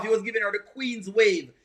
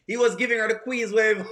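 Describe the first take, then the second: First: Said in the usual way. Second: Said through a laugh. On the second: Real, not acted. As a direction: chuckle while saying it.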